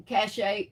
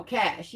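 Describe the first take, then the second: First: Cache read as "cash-ay", with a second syllable; misread word. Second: Cache said as one syllable, "cash"; corrected word. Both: Shown as a demonstration. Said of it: "Pronounced cache?".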